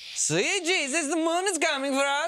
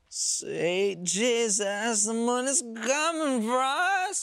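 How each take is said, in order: First: It is said in a plain voice. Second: It is said in a Borat-like voice.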